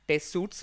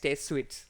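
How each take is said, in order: First: The second word sounds like 'suits'. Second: The second word sounds like 'sweets'. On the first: The speaker calls it wrong. "that was my bad" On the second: The speaker calls it right. "it's actually pronounced as test suites"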